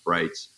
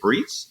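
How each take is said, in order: First: The vowel sounds like 'eye'. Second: The vowel sounds like 'ee'. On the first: The speaker calls it right. "I say pronounce Brights" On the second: The speaker calls it wrong. "some people say Breets"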